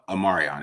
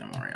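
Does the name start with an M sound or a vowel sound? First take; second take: vowel sound; M sound. First: The name starts with a short vowel before M. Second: The name starts directly with an M sound. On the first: The speaker calls it right. "Amarion. It is" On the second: The speaker calls it wrong. "I keep saying Morion"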